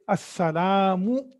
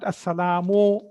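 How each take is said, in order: First: The final vowel is a pure u sound. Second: The final vowel sounds more like o. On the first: The speaker calls it right. "you say assalamu" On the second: The speaker calls it wrong. "not assalamu"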